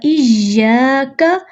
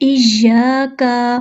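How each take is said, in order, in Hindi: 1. 'ka' का अंतिम स्वर छोटा रखा जाता है। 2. 'ka' का अंतिम स्वर लंबा खींचा जाता है। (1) "मैं यहाँ पे भी हरकत को लंबा नहीं कर रही" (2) "इसको अक्सर लोग पढ़ते हैं इय्याका, ये का नहीं है"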